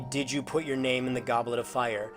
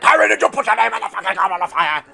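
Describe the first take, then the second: First: The question is asked calmly. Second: The question is asked angrily, shouting.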